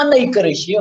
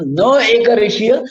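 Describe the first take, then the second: First: नैकरेषीय said as one joined word; नैकरेषीय with a single opening syllable नै; merged compound form. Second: न said as its own syllable before एकरेषीय; न, then एकरेषीय, unmerged; separated negative prefix. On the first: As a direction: run न and एक together as नैक in नैकरेषीय. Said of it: "नैकरेषीय हा शब्द नंतर सांगा". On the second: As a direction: keep न apart from एकरेषीय. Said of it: "पहिल्यांदा म्हणतात न एकरेषीय". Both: Shown as a demonstration.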